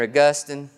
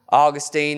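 First: The name is said in a fancier, formal way. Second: The name is said in a plain, everyday way.

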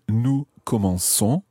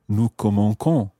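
First: The C is pronounced as a soft S sound. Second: The C is pronounced as a hard K sound. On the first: The speaker calls it right. "a soft C sound" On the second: The speaker calls it wrong. "It would sound like K"

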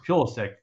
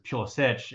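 First: The name is said the Americanized way. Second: The name is said the Croatian way. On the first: "it's Pulisic, an American" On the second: "it's Pulisic if you look at like Croatian"

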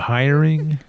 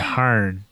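First: Hiring is said with a standard pronunciation. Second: Hiring is said with a Southern country pronunciation. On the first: "Instead of saying, are you hiring?" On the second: "I did two country things"

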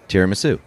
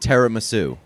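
First: The first syllable sounds like "tier". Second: The first syllable sounds like "te". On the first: The speaker calls it wrong. "I got crushed after last episode for my pronunciation of tiramisu" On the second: The speaker calls it right. "Te, not tier"

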